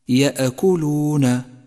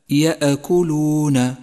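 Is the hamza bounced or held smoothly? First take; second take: bounced; bounced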